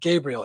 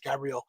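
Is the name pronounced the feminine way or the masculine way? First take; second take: masculine; feminine. First: The name is pronounced the masculine way. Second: The name is pronounced the feminine way. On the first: The name belongs to a man. "is a man's name" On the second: The name belongs to a woman. "kind of like a woman's name"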